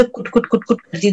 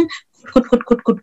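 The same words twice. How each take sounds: First: Softly tapped kut kut; plain quick kut kut; hen pecking sound. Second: First कुट breathed, then higher clicky कुट कुट; pecking sound demo. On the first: Teacher telling children how the hen pecks, plain kut kut. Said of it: "मुर्गी दाना चुगती तो कैसे". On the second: Teacher asking children to listen closely, crisp pecking कुट. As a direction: peck out each कुट crisply. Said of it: "गौर से सुनना आप लोग". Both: Shown as a demonstration.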